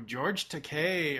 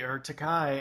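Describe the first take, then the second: First: George Takei with Takei ending in KAY, stress on the last syllable; Takei pronounced tuh-KAY. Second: Takai with its last syllable rhyming with "eye"; Takai pronounced tuh-KYE. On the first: A podcaster naming an actor says Takei as tuh-KAY. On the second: The podcaster offers the alternative tuh-KYE pronunciation. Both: Shown as a demonstration.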